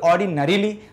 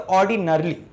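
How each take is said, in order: First: The syllable before -ly has a full vowel. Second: The syllable before -ly is reduced and short. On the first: The speaker calls it wrong. "ये भी एक तरह से थोड़ा सा गलत हो जाएगा" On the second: The speaker calls it right. "ऑर्डिनरली मैंने बोला"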